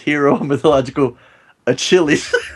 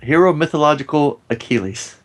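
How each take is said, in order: First: Achilles is pronounced oddly, like 'a Chili's'. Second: Achilles is pronounced in the usual way. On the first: The speaker calls it wrong. "that's not how he says it. He says" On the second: The speaker calls it right. "The word was"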